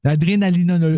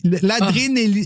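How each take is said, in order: First: "L'adrénalinologie" said in full, syllable by syllable; careful pronunciation. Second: "l'adrénéli-" broken off mid-word; stumbling pronunciation. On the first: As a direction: get "L'adrénalinologie" out completely. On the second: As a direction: trip over "l'adrénéli-" and stop. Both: Shown as a demonstration. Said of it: "juste des actrices qui sont capables de dire ça".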